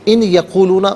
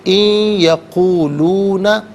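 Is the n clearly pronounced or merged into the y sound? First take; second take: clear; merged. First: The n is pronounced separately before the y. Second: The n merges into a nasalized y sound. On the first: The speaker calls it wrong. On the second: The speaker calls it right.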